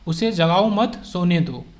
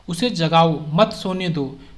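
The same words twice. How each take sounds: First: The pause comes after the word मत. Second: The pause comes after the word जगाओ.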